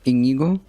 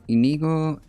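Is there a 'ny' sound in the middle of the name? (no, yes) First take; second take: yes; no. First: The middle sound is a 'ny' sound. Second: The middle sound is a plain 'n'. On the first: The speaker calls it right. "Oh wait, that's an ñ" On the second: The speaker calls it wrong. "I'm not even gonna pretend I know how to pronounce this"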